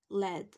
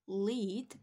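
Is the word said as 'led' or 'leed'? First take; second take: led; leed. First: The vowel is short, like 'led'. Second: The vowel is long, like 'leed'. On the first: It names the toxic heavy metal. The speaker calls it right. "but it is led. So it's similar to let" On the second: It names the verb meaning to guide. The speaker calls it wrong. "this is not pronounced as the verb lead"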